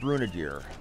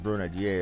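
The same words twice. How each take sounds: First: The name is said with English-style pronunciation. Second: The name is said with French-style pronunciation.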